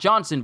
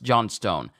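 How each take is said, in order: First: The name ends with a short 'son' sound. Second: The name ends with a full 'stone' sound. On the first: The speaker calls it wrong. "Not Johnson" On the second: The speaker calls it right. "but John Stone"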